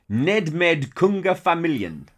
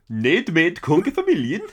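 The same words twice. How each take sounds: First: It is said in a plain voice. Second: It is said in a Swedish Chef impression.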